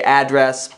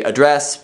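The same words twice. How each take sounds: First: "address" as AD-dress; stress on first syllable. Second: "address" as uh-DRESS; stress on second syllable. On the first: Asking viewers which they say, "address" as AD-dress. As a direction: open "address" on a full AD, stressed. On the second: Asking viewers which they say, "address" as uh-DRESS. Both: Shown as a demonstration. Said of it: "Do you say address?".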